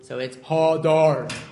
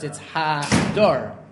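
First: The first vowel is the kamatz vowel. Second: The first vowel is the patach vowel. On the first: "if you have two komatz" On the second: "if you have a patach followed by a komatz"

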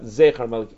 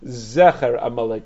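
First: The first vowel is a long 'ey' sound. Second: The first vowel is a short 'e' sound. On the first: The speaker calls it wrong. "not Zecher Amalek" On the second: The speaker calls it right. "used to read it Zecher Amalek with a segel"

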